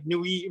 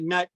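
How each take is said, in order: First: The name sounds like 'nwee', ending in a vowel. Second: The name rhymes with 'but', ending in 't'. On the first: This is closer to the original name. The speaker calls it right. "I believe it's pronounced something like Nui" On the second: This is how most people say it. The speaker calls it wrong. "people pronounce it nut"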